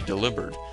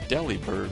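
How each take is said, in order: First: The name is said to rhyme with 'delivered'. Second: The name starts like 'dilly' and ends 'bird'. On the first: It is named as a bird that makes deliveries. "it's supposed to rhyme with delivered" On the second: It is named after a frozen dilly bar treat. "it always sounds like Delibird"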